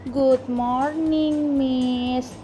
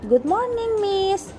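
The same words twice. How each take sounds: First: The greeting is said in a dull, dragging tone. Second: The greeting is said in a bright, cheerful tone. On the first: The speaker calls it wrong. "Oh no, that's so bad. Mulai sekarang jawabannya nggak boleh dengan nada seperti itu ya" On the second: The speaker calls it right. "Kalian bisa jawab dengan"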